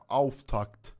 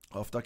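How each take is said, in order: First: The word ends with a kt sound. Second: The word ends with a bare k sound. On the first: The speaker calls it right. "آفتاکت تلفظ درستش اینه" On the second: The speaker calls it wrong. "آفتاک هم من دارم بد تلفظ میکنم"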